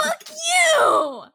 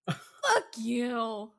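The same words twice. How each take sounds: First: High, loud laughing shout; outraged shout. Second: Low, softer deadened curse; subdued curse. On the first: Host cursing Gideon, outraged shout. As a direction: yell it out at the character. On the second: Host cursing Gideon after the outburst, subdued. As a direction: let it drop, spent after yelling. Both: Real, not acted.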